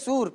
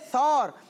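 First: The vowel is a rounded 'oo' sound. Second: The vowel is an 'aw' sound, not 'oo'. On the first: The speaker calls it wrong. "جبل سور پیش کے ساتھ پڑھ رہے ہوتے ہیں" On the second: The speaker calls it right. "بالکل آپ کی بات درست ہے"

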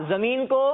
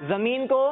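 No difference in how they are said.

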